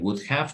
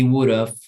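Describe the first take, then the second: First: Both words are said fully and separately. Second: The words are contracted into one reduced form. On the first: The speaker calls it wrong. "you don't say would have" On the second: The speaker calls it right. "you would say he would have"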